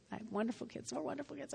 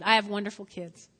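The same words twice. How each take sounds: First: Much softer, tossed-off repeat; quiet aside. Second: Said in the usual way. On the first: Shown as a demonstration. Pastor repeats to himself about his kids, much softer. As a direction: mutter it again under your breath. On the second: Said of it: "This is a great kid".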